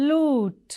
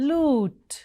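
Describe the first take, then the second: The two takes are said the same way.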